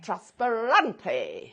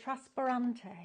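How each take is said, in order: First: Trasparante repeated slowly and louder; copying the word. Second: Trasparante said slowly in Italian; Trasparante, each syllable in Italian; Italian pronunciation. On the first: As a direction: Trasparante echoed with mock Italian flair. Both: Shown as a demonstration. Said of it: "I need to practice my Italian accent".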